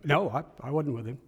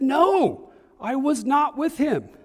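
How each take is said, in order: First: The denial is said in a calmer way. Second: The denial is said angrily and forcefully. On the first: "I always pictured them like this" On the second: "that third one was even more vehement. He got angry this time"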